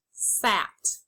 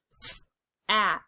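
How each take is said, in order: First: Said in the usual way. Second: "S, at" split into its separate sounds; sounded out. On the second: Shown as a demonstration. Teacher segmenting for students, sounds split apart. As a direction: say "S" then "at" as separate pieces. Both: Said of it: "you will say the sounds and then blend the word".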